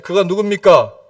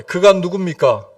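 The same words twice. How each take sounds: First: A louder call-and-response question. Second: Said in the usual way. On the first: Shown as a demonstration. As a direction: ask it out loud to the congregation. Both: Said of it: "크게 얘기하세요".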